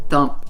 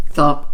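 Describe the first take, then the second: No difference in how they are said.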